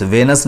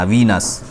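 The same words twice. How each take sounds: First: वेनस said with a short e, ve-nas; wrong pronunciation. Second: वीनस said with a long ee, vee-nas; correct pronunciation. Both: Shown as a demonstration. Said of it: "वेनस नहीं पढ़ना".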